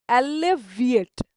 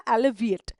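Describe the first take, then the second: First: "alleviate" slowly and louder; teacher's loud, slowed-down "alleviate"; slow, emphatic word. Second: Said in the usual way. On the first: Shown as a demonstration. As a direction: draw out "alleviate" syllable by syllable, firmly. Repeats new word for learners.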